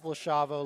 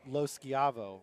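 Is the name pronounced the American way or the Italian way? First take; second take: American; Italian. First: The name is said with an Americanized pronunciation. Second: The name is said with an Italian pronunciation. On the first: This is how the family says it. "my family says Lo Schiavo" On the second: This is how it is said in Italy. "when I went to Italy, it was Lo Schiavo"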